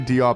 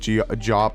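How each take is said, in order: First: The name begins with a plain D sound. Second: The name begins with a J-like sound. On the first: The speaker calls it wrong. "So I say Diop" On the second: The speaker calls it right. "I know it's like G Jop or something like that"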